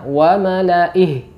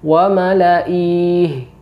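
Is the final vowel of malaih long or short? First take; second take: short; long. First: The final vowel is kept short. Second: The final vowel is held long. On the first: The speaker calls it right. "Yang benar" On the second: The speaker calls it wrong. "tidak boleh dibaca panjang"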